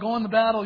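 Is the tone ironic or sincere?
sincere. It sounds sincere and encouraging. The speaker truly means the promise of victory. "And all the other prophets, oh yeah"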